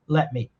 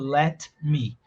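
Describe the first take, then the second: First: The T at the end of let is dropped. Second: The T at the end of let is heard. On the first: "O T desapareceu" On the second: "a gente não fala let me"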